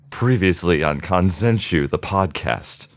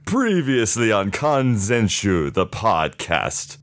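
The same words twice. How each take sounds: First: It is said in a scared tone. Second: It is said in an overacted, dramatic tone.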